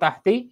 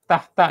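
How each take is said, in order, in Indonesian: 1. Kata ini diakhiri dengan vokal 'i'. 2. Kata ini diakhiri dengan vokal 'a'. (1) "Jadi bukan tahti ya" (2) "tetapi tahta ya"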